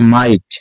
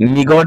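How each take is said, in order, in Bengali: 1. এই শব্দটি G শব্দ ছাড়া উচ্চারণ করা হয়। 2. এই শব্দটি G শব্দ দিয়ে উচ্চারণ করা হয়। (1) "এটা হবে মাইট" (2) "এটা অনেকে মিগট বলা বলে"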